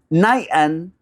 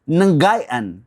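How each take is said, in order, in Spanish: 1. La palabra empieza con un solo sonido nasal, sin g. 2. Un sonido de g fuerte sigue a la n. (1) "me suena mucho mejor si se pronuncia Nayan" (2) "como me imagino que estés pronunciándola Ngayan"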